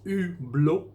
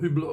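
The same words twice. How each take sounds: First: The name is said with a French accent. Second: The name is said with an English accent. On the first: The speaker calls it right. "the French pronounce it Hublot" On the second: The speaker calls it wrong. "or Hublot or whatever"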